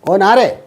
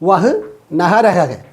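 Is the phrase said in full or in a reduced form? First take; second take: reduced; full. First: The phrase is run together quickly into two syllables. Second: Every syllable of the phrase is said in full.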